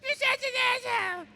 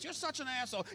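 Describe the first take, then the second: First: It is said in a whiny mocking voice. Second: It is said in a plain voice.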